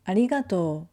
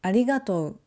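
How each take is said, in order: First: "arigatou" ending in a long o, no u. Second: "arigatou" with the final o and u both sounded; the careful spelling version; o-u spelled out. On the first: Teacher showing students the natural way, long o. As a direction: stretch the o, drop the u. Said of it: "we say arigatou". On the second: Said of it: "instead of saying". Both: Shown as a demonstration.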